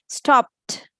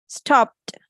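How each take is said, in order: Both takes have the same delivery.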